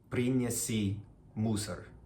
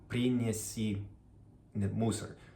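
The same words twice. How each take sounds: Both takes have the same delivery.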